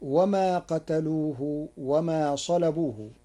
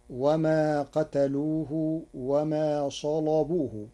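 First: Said in the usual way. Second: Slow salabuhu with a thickened lam; heavy lam. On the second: Shown as a demonstration. Teacher demonstrating Warsh's salabuhu, heavy lam. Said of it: "بتغليظ اللام".

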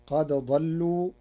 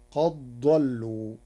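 First: Said in the usual way. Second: Qad dallu run together, no dal heard; slowly fuse the dal into a heavy dad; dal merged into dad. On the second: Shown as a demonstration. Teacher showing Warsh's qad dallu, dal assimilated into dad. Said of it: "بإدغام الدال في الضاد".

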